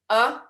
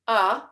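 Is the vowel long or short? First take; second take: short; short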